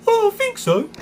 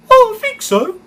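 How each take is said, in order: First: Very high, loud cartoon crane voice; Lofty impression. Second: Very high, loud squeaky cartoon voice; Lofty impression. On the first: Streamer repeating his Lofty voice for chat, high and squeaky. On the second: Streamer showing chat his Lofty voice, high and squeaky. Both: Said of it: "There's my Lofty impression".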